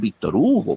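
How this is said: It is said with Spanish pronunciation. "en español podemos decir"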